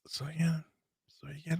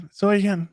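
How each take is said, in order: First: Whispered tease, no voice. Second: Said in the usual way. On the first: Shown as a demonstration. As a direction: breathe it out as a whisper.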